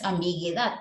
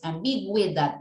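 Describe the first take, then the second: First: The u after the g is silent. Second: The u after the g is pronounced. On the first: The speaker calls it wrong. "no es ambigüedad" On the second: The speaker calls it right. "es ambigüedad, la U suena"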